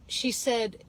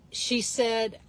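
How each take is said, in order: Both takes have the same delivery.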